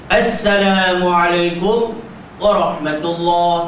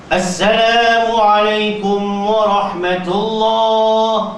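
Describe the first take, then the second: First: There is a pause after the first word. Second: The words run on without any pause. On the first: The speaker calls it wrong. "Mengapa pula berhenti dekat kum tu? ... Tak betul" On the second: The speaker calls it right. "Dia mau teruskan. Tidak ada putus suara"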